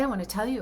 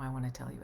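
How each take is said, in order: First: It is spoken louder, as if across a table. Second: It is spoken softly, as if close by. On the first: The listener is across the table. "the person across the table from you" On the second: The listener is right next to the speaker. "when they are right up next to you"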